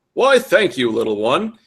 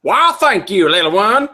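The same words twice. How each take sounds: First: Said in the usual way. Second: High, loud, hammed-up southern drawl; southern twang. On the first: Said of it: "His voice had a distinctive southern twang". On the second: A narrator's reading. Reverend thanking a little boy, broad southern twang. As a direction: lay the southern twang on thick. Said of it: "His voice had a distinctive southern".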